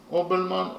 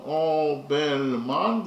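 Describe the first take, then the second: First: Said in the usual way. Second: "Obelman" very slowly drawn out in three long syllables; slow, separated, elongated "Obelman". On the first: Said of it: "That is to say". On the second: Shown as a demonstration. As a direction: stretch each syllable of "Obelman". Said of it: "that consists of three syllables".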